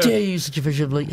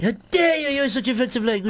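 First: Slurred, mangled words; mushy garbled delivery; garbled mumble. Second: Said in the usual way. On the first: Shown as a demonstration.

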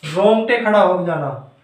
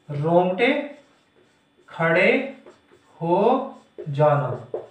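First: Said in the usual way. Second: Slow dictation. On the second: Shown as a demonstration. Teacher dictating the meaning of रोमांच, slow dictation. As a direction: separate words with long pauses.

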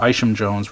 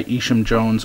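First: Isham said with a long I, "EYE-shum"; corrected pronunciation. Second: Isham said with a long EE, "EE-shum"; mispronounced name. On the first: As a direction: start Isham with an "eye" sound. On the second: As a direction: start Isham with an "ee" sound. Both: Real, not acted.

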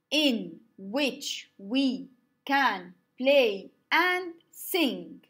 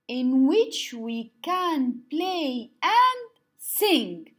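First: Very slow, each syllable spaced; slow syllable count. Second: Slow, each syllable spaced; slow syllable count. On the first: Teacher repeats for students, slow syllable-paced line. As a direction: count it out slowly, word by word. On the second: Teacher shows the class, slow syllable-paced line. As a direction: lay out "in which we can play and sing" beat by beat. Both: Shown as a demonstration. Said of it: "modeling haiku line".

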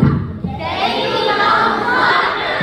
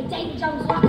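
First: Slow group yell of Davy Jones' locker; shouted. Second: Said in the usual way. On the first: Real, not acted. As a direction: bellow locker louder and higher. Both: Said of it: "Can I hear you say".

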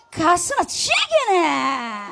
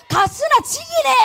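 First: Slow, careful 가스나 지기네 in Busan dialect, drawing out 지기네; slow Busan imitation. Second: Much higher, loud shout of 가스나 지기네 in Busan dialect, stress on 지기네. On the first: Singer slowly repeating the Busan praise she just heard. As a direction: savour each syllable of 가스나 지기네 Busan style. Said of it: "이 말이 최고인 것 같습니다". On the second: Audience member shouting Busan praise at the singer, loud dialect. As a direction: yell 가스나 지기네 like a proud Busan local. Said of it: "부산 사투리로는 제일 칭찬하는 말이 뭐예요". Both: Shown as a demonstration.

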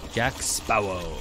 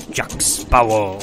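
First: Low, slow gruff pirate. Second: Loud, slow pirate growl. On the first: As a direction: growl it like a pirate. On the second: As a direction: bellow it like a pirate. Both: Shown as a demonstration. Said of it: "in a pirate voice".

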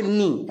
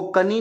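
First: नी starting straight on the n; silent K. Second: कनी with a sounded "ka" before the n; K pronounced. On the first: Teacher showing pupils how knee is read, K silent in नी. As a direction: say नी with no "ka" before it. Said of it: "तो के silent हो जाता है". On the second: Teacher warning pupils off misreading knee, K pronounced in कनी. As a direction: say कनी, voicing the silent K. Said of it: "इसको कनी नहीं पढ़ते". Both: Shown as a demonstration.

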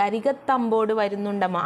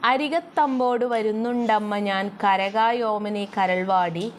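First: Said in the usual way. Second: Slow, measured reading of the verse; slow lilting poem recital; poem recitation. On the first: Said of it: "എന്താണ് പറയുന്നത്?". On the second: Shown as a demonstration. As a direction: chant the line slowly like a recited poem.

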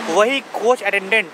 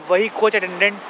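Both takes have the same delivery.

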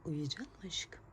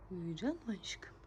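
First: Soft whispered question, rising. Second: Soft whispered question, falling. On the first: Mother whispering as the baby drifts off. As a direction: lull her gently. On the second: Mother whispering again as the baby falls asleep. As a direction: settle her with a hush. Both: Real, not acted.

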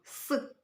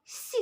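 First: Hard, non-palatalised «с», isolated; hard S sound. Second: Soft, palatalised «с», isolated; soft S sound. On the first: Teacher naming the sound heard in all words, hard «с». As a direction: say «с» as a hard Ukrainian consonant. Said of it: "приголосний твердий". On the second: Teacher naming the sound heard in all words, soft palatalised «с». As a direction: say «с» with the tongue raised, as in «сі». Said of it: "м'який". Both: Shown as a demonstration.

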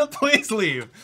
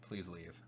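First: Higher and louder, laughing through the words; laughing please leave. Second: Dropped low and much softer, under the breath; muttered please leave. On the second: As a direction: mutter it to yourself, nearly inaudible. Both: Real, not acted. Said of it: "I straight up said, "Please leave".

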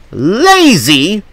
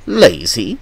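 First: LAZY high, drawn out and rising; LAZY as an outraged high question; indignant echo. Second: LAZY as a rising question; questioning echo. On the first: Insulted coach throwing LAZY back at Toby, indignant. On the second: Insulted coach repeating LAZY to Toby, questioning. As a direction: echo LAZY in disbelief, pitch swinging up at the end. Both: A narrator's reading.

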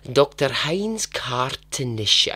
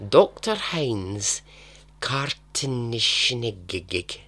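First: Slow, deliberate mock German accent on the name. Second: Slow, heavy mock German accent on the name. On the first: YouTuber retrying a German doctor's name, mock German accent. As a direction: try the name again in a hammed-up German accent. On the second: YouTuber stumbling over a German name, mock German accent. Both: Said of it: "I don't know why I've developed this accent".

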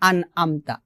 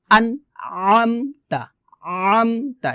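First: আন আমতা with no throat pressure; quick, easy-vowel আমতা; wrong plain ain. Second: আন easy, আমতা squeezed from mid-throat; slow pharyngeal start to আমতা; pressed ain. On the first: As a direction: say আমতা with an ordinary open "a". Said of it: "আমতা হবে না". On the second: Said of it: "এভাবে". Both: Shown as a demonstration.

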